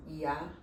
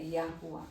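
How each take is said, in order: First: "Yahu" shown as the worse form; wrong Yahu. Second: "Yahuá" with stress on the final a; correct Yahuá. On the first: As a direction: present "Yahu" as the mistake. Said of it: "Coloca assim". ("Yahu" como forma errada) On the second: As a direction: say "Yahuá" ending on a clear a. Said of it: "a pronúncia é". ("Yahuá" com tônica no á final) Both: Shown as a demonstration.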